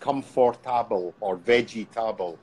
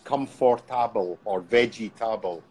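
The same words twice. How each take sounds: First: Each word is said with four syllables. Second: The same.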